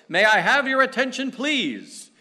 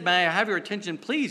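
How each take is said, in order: First: Loud, high call for attention over a crowd; loud announcement. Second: Loud announcement. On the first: Man on the subway calling for attention, loud and high. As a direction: announce it to the whole train. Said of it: "announced in a very loud voice". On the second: Retelling the man's subway call, loud and high. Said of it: "So when he said". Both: Retold or imitated.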